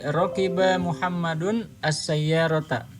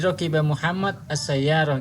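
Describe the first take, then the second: First: Every word keeps its final vowel ending. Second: The words end without their final vowel endings. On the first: This is formal written Arabic. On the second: This is everyday spoken Arabic. "di bahasa sehari-hari itu tidak dibaca harokatnya"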